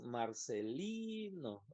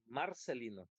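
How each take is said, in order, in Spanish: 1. La sílaba tónica es la tercera. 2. La sílaba tónica es la primera. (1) "como la sílaba tónica es la penúltima" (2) "Si dijéramos que es la primera"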